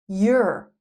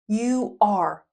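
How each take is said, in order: First: The words merge into one short syllable. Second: Two separate full words are said.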